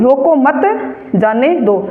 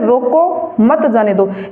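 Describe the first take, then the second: First: There is a pause after 'mat'. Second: There is a pause after 'roko'.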